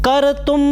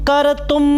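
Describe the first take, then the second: The two takes are said the same way.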